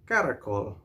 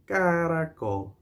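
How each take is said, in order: First: Said in the usual way. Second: "Caracol" stretched out, higher; say-along model. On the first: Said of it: "you can say". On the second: Shown as a demonstration. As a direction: draw out "Caracol" so everyone joins in. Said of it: "Say it together with me".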